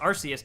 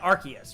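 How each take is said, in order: First: The name is pronounced as read from its spelling. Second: The name is pronounced the official way. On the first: The speaker calls it wrong. "I still call Arceus" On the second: The speaker calls it right. "supposed to be called"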